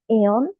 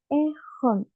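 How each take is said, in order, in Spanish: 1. La h es muda. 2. La h se pronuncia claramente. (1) "no es eon" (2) "sino que es ejón"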